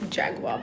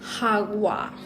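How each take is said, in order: First: The word begins with a J sound. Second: The word begins with an H sound. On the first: The speaker calls it wrong. "So it's not Jaguar" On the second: The speaker calls it right. "I found out what the actual pronunciation is"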